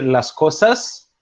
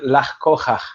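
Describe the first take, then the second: First: The middle consonant is a clear S sound. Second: The middle consonant is an R-like sound. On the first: "en lugar de decir las cosas" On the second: "no pronunciaban la S. ... ponían una R"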